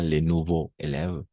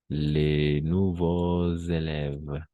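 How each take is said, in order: First: Nouveaux and élèves are said without a linking z. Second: Nouveaux and élèves are joined by a linking z. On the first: The speaker calls it wrong. "Pas les nouveaux élèves" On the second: The speaker calls it right. "on va faire la liaison"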